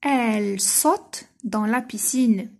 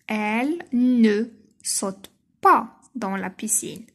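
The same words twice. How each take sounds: First: Said in the usual way. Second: Slow, with ne and pas clearly marked; stressed negation for pupils. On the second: Shown as a demonstration. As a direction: lean on "ne" and "pas" as you read it slowly. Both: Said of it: "Deuxième phrase".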